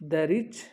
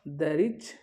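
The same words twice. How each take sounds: No difference in how they are said.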